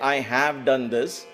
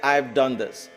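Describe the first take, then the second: First: The word have is said in full. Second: The word have is contracted to ve.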